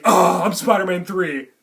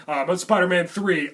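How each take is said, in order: First: Mock dejected. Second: Said in the usual way. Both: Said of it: "Andrew Garfield still thinks, "Oh, I'm lame".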